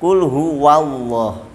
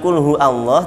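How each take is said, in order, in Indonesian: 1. Ada bunyi w yang menghubungkan hu ke Allah. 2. Tidak ada bunyi w yang menghubungkan hu ke Allah. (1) "tapi qul huwallah. Pakai huruf waw" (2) "Bukan qul hu Allah"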